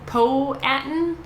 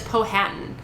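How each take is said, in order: First: The H sound in the name is dropped. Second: The H sound in the name is pronounced. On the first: The speaker calls it right. "I'm not supposed to pronounce the H" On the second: The speaker calls it wrong. "I was pronouncing it as Powhatan, and that's not right"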